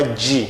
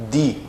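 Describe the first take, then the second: First: "de" as "djee", the Brazilian palatal sound; softened D. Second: "Di" with a hard D, as in idiota; countryside DI. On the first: Teacher shows learners what to avoid, "de" said as "djee". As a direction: say "de" with a J-like release. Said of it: "Não é de". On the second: Teacher shows Brazilian learners the sound, "Di" with hard D. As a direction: say "Di" with plain D, no J sound. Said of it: "é um di bem ali interior". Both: Shown as a demonstration.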